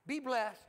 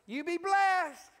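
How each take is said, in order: First: Said in the usual way. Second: Loud, high, drawn-out blessing; raised voice, stretching BLESSED; emphatic blessing. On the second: Shown as a demonstration. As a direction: call it out big and slow to a congregation. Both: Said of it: "let's just practice a little bit".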